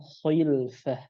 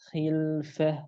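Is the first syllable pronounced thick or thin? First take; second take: thick; thin. First: The first syllable is pronounced thick and heavy. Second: The first syllable is pronounced thin and light. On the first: The speaker calls it wrong. "bukan khilfah" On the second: The speaker calls it right. "kondisi rahangnya harus langsung tipis"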